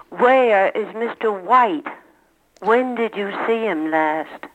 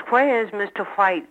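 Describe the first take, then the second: First: "where" and "White" with a plain W, no H; dropped H. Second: "where" and "White" as "hwere" and "hwite"; H before W. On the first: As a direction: say "where", "White", "When" without any breath before W, slowly. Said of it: "always dropped the H when". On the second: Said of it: "is the H still used before the W". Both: Shown as a demonstration.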